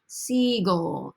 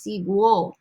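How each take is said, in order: First: The g is followed directly by the vowel o. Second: A w sound comes between the g and o. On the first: The speaker calls it right. "I want the g sound" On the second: The speaker calls it wrong. "There's a w sound happening there"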